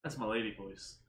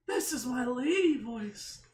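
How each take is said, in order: First: Said in the usual way. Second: Higher put-on woman's voice; lady voice. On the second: Shown as a demonstration.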